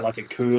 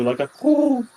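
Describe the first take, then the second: First: Said in the usual way. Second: High, loud, drawn-out coo; imitated cooing call; bird coo. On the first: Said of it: "he lets out".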